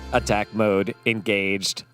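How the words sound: It is said in a put-on robot voice.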